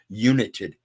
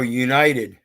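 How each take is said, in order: First: The first part sounds like 'unit'. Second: The first part sounds like 'unite'.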